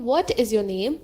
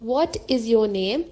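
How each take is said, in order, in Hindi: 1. यह साफ़ प्रश्नवाचक लहजे में बोला गया है। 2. यह साफ़ प्रश्नवाचक लहजे में बोला गया है।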